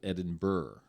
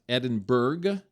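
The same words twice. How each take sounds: First: The ending is not said like 'berg'. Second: The ending is said like 'berg'. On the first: The speaker calls it right. "They pronounce it Edinburgh" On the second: The speaker calls it wrong. "it's not Edinburgh, even though it's like Berg"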